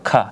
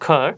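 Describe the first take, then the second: First: The final r sound is silent. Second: The final r sound is pronounced. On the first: "British accent ... শুধু খা র উচ্চারিত হবে না" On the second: "আমি যদি আমেরিকানে একটা উচ্চারণ করতে চাই তাহলে আমরা বলবো খর"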